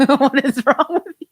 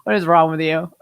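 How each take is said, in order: First: Laughing disbelief, pitched up. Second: Said in the usual way. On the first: Real, not acted. Streamer laughing back at the chat joke. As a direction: laugh it out in mock outrage.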